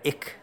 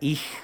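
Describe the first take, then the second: First: The word ends in a hard k sound. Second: The word ends in a soft hissing sound.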